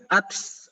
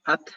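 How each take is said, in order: First: The final t ends with a hissing s-like release. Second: The final t ends with a light, clean puff. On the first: The speaker calls it wrong. "tidak boleh sampai ats, ats. Itu terlalu berlebihan" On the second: The speaker calls it right. "Ta, at, at, at"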